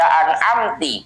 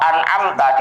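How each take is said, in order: First: The word ends with an 'i' vowel. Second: The word ends with an 'a' vowel. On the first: "kakasri ta'i an'amta ... dibaca an'amti" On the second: "lafat an'amta"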